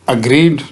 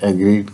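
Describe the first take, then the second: First: The first vowel is a short 'uh' sound. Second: The first vowel is an 'eh' sound. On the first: The speaker calls it right. "अग्रीड जो है वो pronounce करना" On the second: The speaker calls it wrong. "बजाय इसके एग्रीड कहा जाए"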